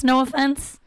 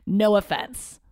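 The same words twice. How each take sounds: First: Higher, louder, slow half-apology; a grudging "no offense" that means offense; insincere no offense. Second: Said in the usual way. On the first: Shown as a demonstration. Comedian takes back her Trump-voter jab, a grudging no offense. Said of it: "You can't just say no offense when you actually mean offense". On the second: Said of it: "You can't just say no offense".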